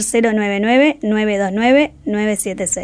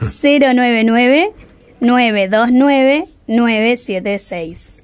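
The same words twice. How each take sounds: First: The number is said at normal, faster speed. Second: The number is said slowly, like a radio announcer.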